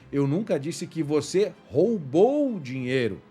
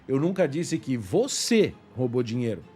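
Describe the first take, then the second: First: The stress is on the word roubou. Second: The stress is on the word você.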